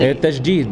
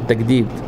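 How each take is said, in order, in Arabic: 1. الجيم صوت j ناعم، مثل dj. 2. الجيم صوت g قاسٍ. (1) "التجديد مش التجديد" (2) "مفيش حرف اسمه الجيم في اللغة العربية"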